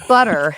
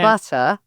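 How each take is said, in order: First: The word is said with an American accent. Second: The word is said with a British accent. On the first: This is the newly adopted way of speaking. "And butter instead of" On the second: This is the original way of speaking. "instead of butter"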